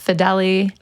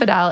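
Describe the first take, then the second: First: The name is said with three syllables. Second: The name is said with two syllables. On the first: This is the Italian family pronunciation. The speaker calls it right. "I'm Italian. It's Fedeli" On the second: This is how most people say it. The speaker calls it wrong. "Everyone says yeah. Fidel"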